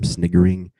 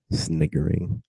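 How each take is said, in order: First: Said in the usual way. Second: High mock sniggering. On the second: Shown as a demonstration.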